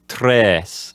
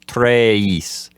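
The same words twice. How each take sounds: First: The vowel stays a single steady eh. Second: The vowel glides from eh toward ee. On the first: The speaker calls it right. "just have just an eh sound in it" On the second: The speaker calls it wrong. "change the letter E's sound as you're saying it"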